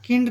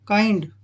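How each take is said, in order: First: The vowel is a short 'i' sound. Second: The vowel is a long 'eye' sound. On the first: The speaker calls it wrong. "किंड नहीं है ये।" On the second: The speaker calls it right. "ये बनेगा काइंड।"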